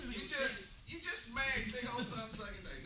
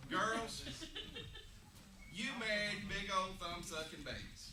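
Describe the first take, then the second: First: Teasing repeat. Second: Teasing. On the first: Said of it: "repeats louder, higher". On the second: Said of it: "teasing girls". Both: Real, not acted.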